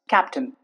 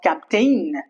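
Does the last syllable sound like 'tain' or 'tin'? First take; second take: tin; tain. First: The last syllable has a reduced 'in' vowel. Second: The last syllable has a full 'ain' vowel. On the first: The speaker calls it right. "It's just captain, not attain" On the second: The speaker calls it wrong. "It's not captain"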